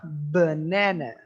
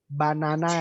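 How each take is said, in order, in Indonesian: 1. Vokal yang tidak bertekanan tereduksi menjadi 'uh' yang lemah. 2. Vokal yang tidak bertekanan adalah bunyi 'a' yang penuh. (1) "Yang lebih tepat adalah banana" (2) "Banana itu bukan. Bukan yang tepat"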